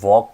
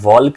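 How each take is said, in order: First: The L sound is silent in the word. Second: The L sound is pronounced in the word. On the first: The speaker calls it right. "આપણે વોક કહીશું" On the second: The speaker calls it wrong. "આમાં એલ નો ઉચ્ચાર નહીં થાય... વોલ્ક નહીં કહીએ"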